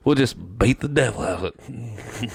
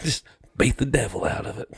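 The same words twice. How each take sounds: First: Soft, gentle, pleased; soft quiet chuckling voice; Bob Ross impression. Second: Bob Ross impression. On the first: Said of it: "he fucking grins". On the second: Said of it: "He's like".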